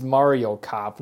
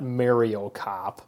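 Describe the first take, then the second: First: Said in the usual way. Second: "Mario" as MARE-ee-oh, drawn out slowly; mispronounced Mario. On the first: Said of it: "He tells you how to pronounce". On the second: Shown as a demonstration. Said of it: "people who say Mario instead of Mario".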